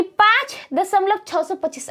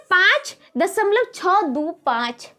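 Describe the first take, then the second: First: Said in the usual way. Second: छः, दो, पाँच each read as a separate digit. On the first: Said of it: "इसको ऐसे नहीं पढ़ लेंगे". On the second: Shown as a demonstration. Teacher correcting the wrong reading, छः दो पाँच one digit at a time. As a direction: separate छः, दो and पाँच after दशमलव. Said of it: "इसको पढ़ेंगे".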